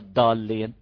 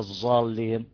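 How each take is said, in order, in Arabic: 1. الحرف هو صوت الدال العادية. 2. الحرف هو صوت الزاي. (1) "مش دال" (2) "مش زين"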